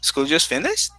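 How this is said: It is said as a surprised question. The speaker can hardly believe it is over. "Really? Oh my goodness, time flies"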